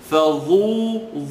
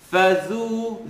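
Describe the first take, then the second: First: The dh sound is heavy and thickened. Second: The dh sound is light, not thickened. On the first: The speaker calls it wrong. "Now listen to it incorrectly" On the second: The speaker calls it right. "Let me say it right"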